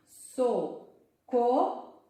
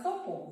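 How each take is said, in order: First: SOCORRO slow, split into so, co, rro with long pauses; syllable by syllable. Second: Said in the usual way. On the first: Shown as a demonstration. Teacher counting syllables with pupils, syllable by syllable. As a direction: sound out SOCORRO, each syllable a separate beat. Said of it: "Vamos contar quantas sílabas". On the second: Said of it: "aqui é a palavra".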